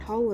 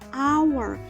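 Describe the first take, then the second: First: The word begins with an h sound. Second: The word begins with a vowel sound. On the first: The speaker calls it wrong. "bukan hour ya" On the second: The speaker calls it right. "tapi hour. ... karena bunyinya A ya"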